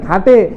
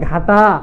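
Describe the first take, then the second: First: The final vowel is a closed e sound. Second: The final vowel is an open ae sound. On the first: The speaker calls it right. "এ দ্বারা যদি উচ্চারণ করি তাহলে ঘাটে" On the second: The speaker calls it wrong. "আর একা এ দ্বারা উচ্চারণ করলে তাহলে ঘাটা"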